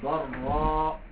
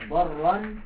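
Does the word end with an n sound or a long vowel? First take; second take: long vowel; n sound. First: The word ends with a lengthened vowel. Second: The word ends with an n sound. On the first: The reader stops on this word. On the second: The reader continues without stopping.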